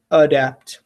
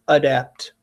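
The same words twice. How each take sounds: The two takes are said the same way.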